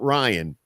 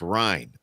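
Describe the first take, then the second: First: The name is pronounced like the common name Ryan. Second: The name is pronounced like the spelling Ryne. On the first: The speaker calls it wrong. "it's not Ryan" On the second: The speaker calls it right. "it's Ryne, R Y N E"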